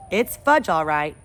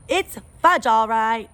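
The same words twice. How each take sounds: First: A hint of a boy stating it plainly; Peter's voice. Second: Put-on much higher, louder little-boy echo; toddler echo. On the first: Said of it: "I said". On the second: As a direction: chirp it back like a proud toddler. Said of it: "my brother repeated".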